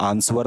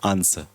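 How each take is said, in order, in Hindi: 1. इस शब्द में w की ध्वनि बोली जाती है। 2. इस शब्द में w की ध्वनि छोड़ दी जाती है। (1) "आंसर नहीं बोलते" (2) "आंसर में डब्लू नहीं आता"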